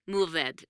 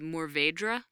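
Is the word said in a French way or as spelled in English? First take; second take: French; as spelled. First: It is said with a French-like pronunciation. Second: It is said as the spelling suggests. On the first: The speaker calls it right. "apparently roughly the pronunciation" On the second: The speaker calls it wrong. "You look at it and how it's spelled, and I used to say Mourvèdre"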